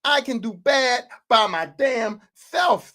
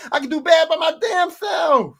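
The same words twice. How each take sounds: First: Drawn out, word by word; slow, deliberate acted reprimand; slow emphatic repeat. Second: High, loud indignant shout; acted outburst, raised and forceful; mad team owner. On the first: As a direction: spell it out slowly as the stern boss. Same line repeated slowly for emphasis. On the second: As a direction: shout it as the fed-up boss. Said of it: "I'm so mad".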